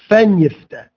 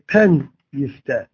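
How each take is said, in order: First: The first word begins with a soft f. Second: The first word begins with a hard p. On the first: The speaker calls it wrong. "you don't say" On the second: The speaker calls it right. "You say pen yifteh"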